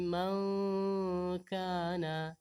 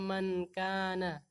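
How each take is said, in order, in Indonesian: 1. N-nya tersembunyi dengan dengung sengau yang dipanjangkan. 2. N-nya biasa dan pendek, tanpa dengung sengau. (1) "tapi mangkana" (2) "kita tidak membacanya mankana"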